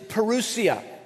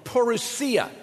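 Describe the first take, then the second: First: The stress falls early in the word. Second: The stress falls late in the word.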